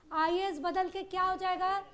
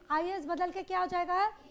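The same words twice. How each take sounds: The two takes are said the same way.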